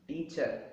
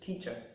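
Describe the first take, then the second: First: The word stress falls in an unnatural place. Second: The word stress falls in the natural place. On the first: The speaker calls it wrong. "proper word stress is not given" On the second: The speaker calls it right. "the way of pronouncing this is teacher"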